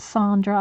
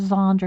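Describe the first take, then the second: First: The name begins with an S sound. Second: The name begins with a Z sound. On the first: The speaker calls it right. "I think is how she pronounces it" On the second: The speaker calls it wrong. "I've been calling her Zandra"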